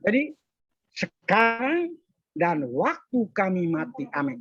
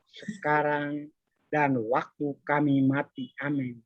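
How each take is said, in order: First: The prayer line is said slowly and carefully. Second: The prayer line is rattled off quickly. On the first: The person prays with real devotion. The speaker calls it right. "Itu berarti orang doa dengan penghayat" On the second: The person prays mechanically. The speaker calls it wrong. "dia bukan dengan pelan"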